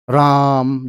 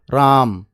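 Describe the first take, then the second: First: The vowel is stretched out very long. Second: The vowel is stretched only slightly.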